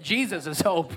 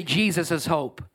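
First: Mean every word of "Jesus is hope"; like you mean it. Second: Said in the usual way. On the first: Shown as a demonstration. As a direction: say it with real conviction. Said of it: "say it like you mean it". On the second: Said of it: "Look at your neighbor and say".

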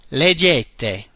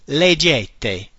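First: Leggete said as leh-JEH-teh; Italian word. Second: Leggete repeated as leh-JEH-teh; Italian word. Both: Shown as a demonstration.

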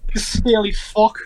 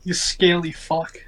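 First: Slow, put-on Scottish insult; Scottish accent. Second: Put-on slow mumbled insult from a passed-out drunk; unconscious drunken mumble. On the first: Shown as a demonstration. Player redoing his drunk character's insult on request, Scottish accent. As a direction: say it as a drunken Scot, drawn out slowly. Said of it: "say that in a Scottish accent". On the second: Drunk half-elf insulting someone in his sleep, slow mumble. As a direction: mumble it slowly, as if out cold. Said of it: "in, unconsciously".

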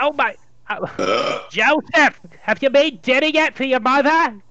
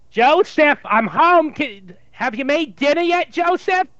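First: Put-on Jewish mother accent. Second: Put-on loud, higher Jewish mother accent calling out. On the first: Older Jewish mother asks her son about dinner, in a loud Jewish accent. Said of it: "Jewish accent". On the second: Jewish mother calls her son from the door, in a loud, higher Jewish accent. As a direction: belt it like a Jewish mother coming home. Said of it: "trying to work on the Jewish accent".

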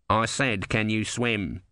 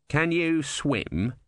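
First: Mildly insistent repeat. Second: Said in the usual way. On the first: A narrator's reading. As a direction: press the question with a falling end. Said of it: "voice of the tortoise was insistent".

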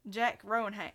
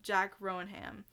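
First: Failed Australian accent. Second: Jack Rohan drawn out slowly in a mock Australian accent; Australian accent, slow and careful. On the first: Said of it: "not Australian". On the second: Host retries the name in an Australian accent, slow and deliberate. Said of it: "picture me doing a perfect Australian accent". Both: Shown as a demonstration.

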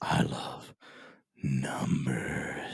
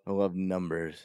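First: Low, breathy whisper on NUMBERS; hammed-up, drawn-out love confession; exaggerated odd delivery. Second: Savoring the words I LOVE NUMBERS; oddly savored. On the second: Real, not acted. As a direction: relish it a little too much. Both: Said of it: "why'd you say it like that".

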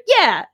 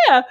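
First: Quick, higher-pitched retold yes; prompt answer. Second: Mock crying-too-hard answer; imitated tearful yes. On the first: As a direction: answer promptly, without any tearful delay. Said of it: "answer in a timely manner". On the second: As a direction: imitate answering through tears. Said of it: "she was crying so hard".

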